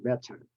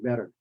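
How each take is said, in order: First: The middle consonant is a clear T. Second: The middle consonant is a flapped D. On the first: "British would say better" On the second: "but we say better"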